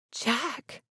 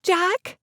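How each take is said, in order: First: Soft breathy gasp of his name; startled hushed breath. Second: High call across a field; raised, carrying call. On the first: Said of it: "she breathed". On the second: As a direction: call his name out to stop him. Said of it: "calling out for him". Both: A narrator's reading.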